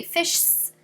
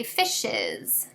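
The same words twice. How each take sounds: First: "fishs" in one syllable, fish-sss; wrong plural of fish. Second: "fishes" in two syllables, FISH-iz; correct plural fishes. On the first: Teacher shows what we can't say, "fishs" with no vowel before S. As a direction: run the SH of "fishs" straight into a hissed S. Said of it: "We can't just say fishs". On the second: Teacher gives the plural we have to say, "fishes" with an -iz ending. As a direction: end "fishes" on a clear added -iz syllable. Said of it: "we have to say fishes". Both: Shown as a demonstration.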